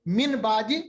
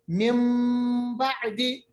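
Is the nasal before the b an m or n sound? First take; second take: n; m. First: The nasal before b is an n sound. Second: The nasal before b is an m sound. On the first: "मिसाल आती है मिन बादी" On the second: "मगर हम पढ़ते हैं मिम बादी"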